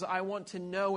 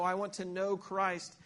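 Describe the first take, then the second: First: Said in the usual way. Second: Slow, with know drawn out and leaned on; lingering stress on know. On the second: Shown as a demonstration. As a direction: dwell on the word know as something intimate. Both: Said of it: "that word know is an intimate know".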